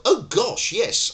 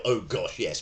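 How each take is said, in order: First: Much higher and louder, gushing; overeager janitor. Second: Said in the usual way. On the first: Pretend. Janitor answers the shouting tenant, gushing and theatrical. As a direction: burst out with theatrical delight. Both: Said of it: "I probably wouldn't go".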